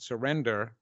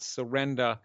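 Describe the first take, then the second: First: The word is said in a neutral accent. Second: The word is said in a New York accent.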